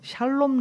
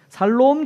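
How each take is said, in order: First: The word begins with an sh sound. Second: The word begins with a plain s sound. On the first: "샬롬이에요" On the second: "꼭 살롬 죽을롬 맨날 이러세요"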